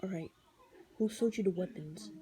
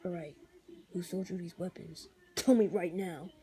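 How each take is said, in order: First: A lightly deepened calm hero voice; calm Daredevil voice. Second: Low, quiet, menacing growl; a lightly voiced growling vigilante; Punisher voice. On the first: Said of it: "he kinda does his voice like". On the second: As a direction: threaten him, deep and cold. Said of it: "The Punisher voice is like". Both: Shown as a demonstration.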